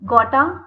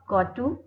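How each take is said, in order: First: The two words blend into one reduced word. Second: Both words are said fully and separately.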